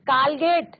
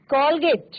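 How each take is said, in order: First: कॉलगेट with a plain open "aa" as in काल; कॉलगेट said as "kaalget", the wrong way. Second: कोलगेट with the rounded ऑ sound between aa and o; कोलगेट said "kolget" with a half-open rounded vowel; correct pronunciation. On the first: Teacher shows students the wrong pronunciation, open aa sound. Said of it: "कॉलगेट नहीं बोलना है". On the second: Teacher models the right pronunciation, rounded ऑ vowel. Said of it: "अर्धचंद्राकार मात्रा है उसके साथ उच्चारण करना है". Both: Shown as a demonstration.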